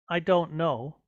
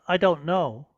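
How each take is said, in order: The two takes are said the same way.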